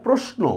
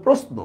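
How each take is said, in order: First: প্রশ্ন with a hushing "sh"; mistaken pronunciation. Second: প্রশ্ন with a hissed "s" before the "n"; correct pronunciation. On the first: Teacher shows the common mistake, প্রশ্ন as "proshno". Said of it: "আসলে প্রশ্ন না". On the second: Teacher corrects the common mistake, প্রশ্ন as "prosno". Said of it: "উচ্চারণ হবে". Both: Shown as a demonstration.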